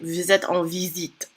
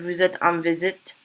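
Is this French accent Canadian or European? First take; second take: European; Canadian. First: It is said with a French from France accent. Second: It is said with a Canadian French accent. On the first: "with a French from France accent" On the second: "you can really hear his Canadian accent"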